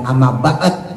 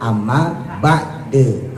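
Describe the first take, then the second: First: The last word ends with no vowel. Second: The last word ends with a short e. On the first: The speaker calls it wrong. "Bukan amma ba'd, bukan" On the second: The speaker calls it right. "tapi amma ba'de kalau diwakofin"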